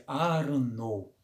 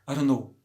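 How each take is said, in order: First: The phrase is said at a slower, careful speed. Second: The phrase is said quickly and run together. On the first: "Vou repetir" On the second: "Agora imagina você ouvir isso rápido"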